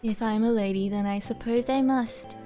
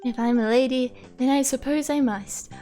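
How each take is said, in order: First: It is said in a flat monotone. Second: It is said with a lively, varied pitch.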